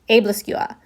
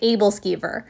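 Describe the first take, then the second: First: It is said with a Danish pronunciation. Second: It is said with an English pronunciation. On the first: "the pronunciation in Danish is" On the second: "in English, I've heard people say"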